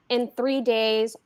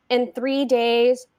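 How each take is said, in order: First: Slow ominous whisper; hushed slow whisper. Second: Slow, spaced, foreboding; slow measured refrain; slow spoken. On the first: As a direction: breathe it like a secret. Whispered refrain. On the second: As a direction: lay out each word slowly. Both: A narrator's reading.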